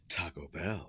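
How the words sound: It is said with a grand, impressive flair. The place is a fancy, high-end restaurant. "he does say it with a flair of you should be impressed"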